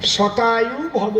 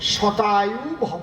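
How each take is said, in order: Both takes have the same delivery.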